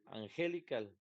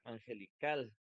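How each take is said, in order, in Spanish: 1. El acento está en la segunda sílaba. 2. El acento está en la última sílaba. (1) "No puede ser la segunda porque diría angelical" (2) "si fuera la última, diría angelical"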